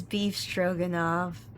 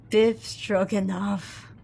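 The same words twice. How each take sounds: First: Beef Stroganoff with a long ee, like the dish; misread as Beef. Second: Biff Stroganoff with a short i, slow and deliberate; corrected Biff. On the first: Misreading the name aloud as Beef Stroganoff. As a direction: Beef Stroganoff, pif, as in the food. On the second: Correcting the name to Biff Stroganoff, slowly. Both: Shown as a demonstration.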